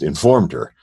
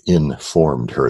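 First: The word informed is said smoothly without a break. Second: The word informed has a break after in. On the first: "Not just informed her" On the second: "There's a hyphen in my pronunciation if our listeners can hear it"

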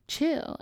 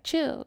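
First: It is said in a calmer, milder tone. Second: It is said in a more aggressive tone.

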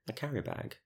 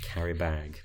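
First: The stress falls on the first word. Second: The stress falls on the second word. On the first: The speaker calls it right. "That's better" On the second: The speaker calls it wrong. "Because you put such an emphasis on bag"

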